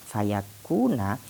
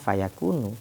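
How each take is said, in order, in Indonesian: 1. Kata ini berakhir dengan vokal 'a' pendek. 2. Kata ini berakhir dengan vokal 'u' pendek. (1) "ketika dia dibaca nasab" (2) "ketika lafadz fayakuna itu dibaca rofa, berarti dibacanya fayakunu"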